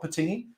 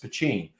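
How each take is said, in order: First: The middle consonant is a plain t sound. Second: The middle consonant is a ch sound. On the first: The speaker calls it wrong. "It's not Patine" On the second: The speaker calls it right. "it's Pachine"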